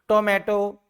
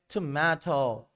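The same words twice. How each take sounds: First: The first t is plain, without a breath puff. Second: The first t has a strong breath puff. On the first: The speaker has not worked on their accent. The speaker calls it wrong. "a common and a typical Pakistani person... will pronounce like" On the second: The speaker sounds confident and skilled. The speaker calls it right. "Like this you have to pronounce"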